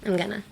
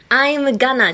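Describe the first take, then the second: First: "I'm gonna" slurred and much softer; lazy delivery. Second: Said in the usual way. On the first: Shown as a demonstration. Teacher contrasting the lazy version, soft slur. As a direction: drop the energy on "I'm gonna". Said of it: "Act lazy and it's perfect". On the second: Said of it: "じゃなくて".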